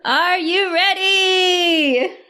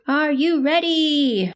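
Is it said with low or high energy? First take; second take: high; low. First: It is said with high energy. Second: It is said with low energy.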